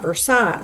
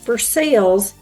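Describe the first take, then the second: First: It uses the non-local, outsider pronunciation. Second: It uses the local Kentucky pronunciation. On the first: This marks someone as an outsider. The speaker calls it wrong. "and not Versailles" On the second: This is how locals say it. The speaker calls it right. "it is pronounced Versailles here in Kentucky"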